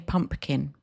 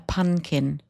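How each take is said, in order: First: The middle is said with m and p. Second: The middle is said with n, no p. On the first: The speaker calls it right. "many people can't say pumpkin" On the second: The speaker calls it wrong. "They call it a punkin"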